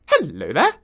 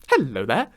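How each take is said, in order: First: It is said with high energy. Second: It is said with low energy.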